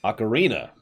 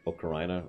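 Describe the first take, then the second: First: "Ocarina" said ah-kuh-REE-nuh; "Ocarina" with REE stressed; correct pronunciation. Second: "ocarina" said oh-kuh-RYE-nuh; unsure "ocarina" with an eye sound in the third syllable; alternative pronunciation. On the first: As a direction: say "Ocarina" with an ee sound in the third syllable. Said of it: "is apparently correct". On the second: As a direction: say "ocarina" with an oh start and RYE stressed. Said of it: "I called it ocarina, or ocarina". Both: Shown as a demonstration.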